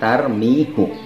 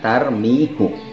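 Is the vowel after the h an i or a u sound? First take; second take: u; u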